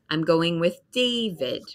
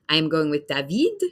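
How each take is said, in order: First: The stress does not fall on the final syllable. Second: The stress falls on the final syllable. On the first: This is how an English speaker says it. The speaker calls it right. "But for me, I would say" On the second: This is how French speakers say it. The speaker calls it wrong. "This is the French pronunciation of these words or the French accent"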